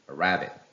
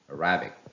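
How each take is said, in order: No difference in how they are said.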